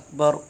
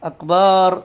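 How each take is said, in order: First: The vowel after the b is short. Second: The vowel after the b is drawn out long. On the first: The speaker calls it right. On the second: The speaker calls it wrong.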